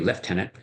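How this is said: It is said with a British accent.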